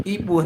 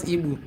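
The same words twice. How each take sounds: First: "Igbo" said as ee-boh; correct Igbo pronunciation. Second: "Igbo" said as ee-boo; mispronounced Igbo. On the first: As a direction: end "Igbo" on a clear oh. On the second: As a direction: end "Igbo" on an oo sound. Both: Shown as a demonstration. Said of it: "not Igbo".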